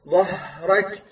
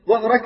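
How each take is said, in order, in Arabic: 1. يُنطق صوت الهاء طويلًا. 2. يُنطق صوت الهاء قصيرًا. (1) "الهاء حرف رخوي" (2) "كذلك قصر كثير من القراء مع الهاء"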